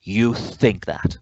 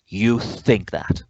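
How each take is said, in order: First: It sounds angry. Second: It sounds angry.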